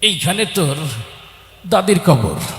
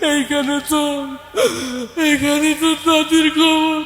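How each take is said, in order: First: The line is recited in a fidgety, distracted voice. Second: The line is recited in a weeping, sobbing voice. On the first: The reciter is distracted by itching. "এরকম একটা চুলকানি রোগী আসছে" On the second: The reciter is overcome with grief. "ও আগেই কান্দা শুরু করে দিছে"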